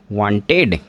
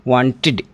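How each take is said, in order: First: वांटेड with a plain 'ed' ending, wanted-ed; teacher's wrong take of वांटेड; wrong pronunciation. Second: वांटेड ending in a short 'id', want-id; teacher's corrected वांटेड; correct pronunciation. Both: Shown as a demonstration. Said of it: "वांटेड नहीं".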